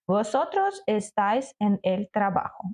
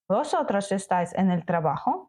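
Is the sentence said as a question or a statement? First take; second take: statement; question. First: It has the intonation of a plain statement. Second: It has the intonation of a question. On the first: It states that you are at work. "У нас є речення" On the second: It asks whether you are at work. "просто змінюємо інтонацію"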